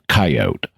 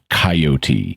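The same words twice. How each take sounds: First: The word is said with two syllables. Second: The word is said with three syllables. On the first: "the two-syllable coyote" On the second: "a three-syllable pronunciation of coyote"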